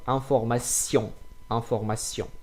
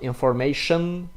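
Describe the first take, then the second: First: Information ending in nasal sion, no shun; French information. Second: Information with English shun ending. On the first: Teacher giving French information after English one. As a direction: end information with sjon through the nose. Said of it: "it's not information". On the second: Teacher showing the wrong English version. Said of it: "it is inf". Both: Shown as a demonstration.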